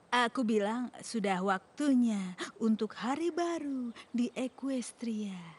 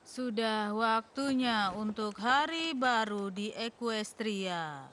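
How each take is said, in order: First: It is said softly, too quiet to carry far. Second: It is said at a normal, conversational level. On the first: "mungkin kau harus mencobanya sedikit lebih keras" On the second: "Sama seperti kau bicara denganku"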